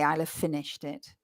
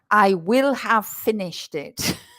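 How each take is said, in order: First: The words 'I will' are contracted to one syllable. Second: The words 'I will' are said in full. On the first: The speaker calls it right. "I've deliberately contracted there" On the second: The speaker calls it wrong. "you will never hear native speakers saying"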